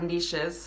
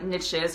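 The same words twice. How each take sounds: First: The word is said the fancy, refined way. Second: The word is said the plain, everyday way.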